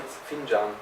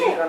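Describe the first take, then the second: First: The middle consonant is a j sound. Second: The middle consonant is a hard k sound. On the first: The speaker calls it right. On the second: The speaker calls it wrong. "it's not called"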